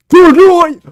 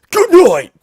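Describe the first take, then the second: First: Very loud, high mock hero shout; Batman punchline. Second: High, loud mock Batman shout; Batman punchline. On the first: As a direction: bellow it as the kick lands. Replaying the Batman skit. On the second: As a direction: yell it like a hero landing a kick. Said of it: "drop kicks him and goes".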